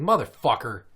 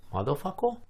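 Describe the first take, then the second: First: Loud, sharp mock outburst; retold driver's curse. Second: Put-on high little-kid voice, questioning; imitated child echo. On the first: Parent cursing at a driver, retold angry outburst. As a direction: curse out another driver, louder on the end. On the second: Daughter echoing from the back seat, high questioning child voice. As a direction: innocently parrot it with childish sounds, rising.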